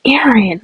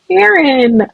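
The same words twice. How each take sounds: First: Said in the usual way. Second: "Aaron" exclaimed higher, falling at the end; exclaiming. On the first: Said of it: "you can be like". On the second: Shown as a demonstration. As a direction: blurt out "Aaron" like you stubbed your toe. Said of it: "I was like".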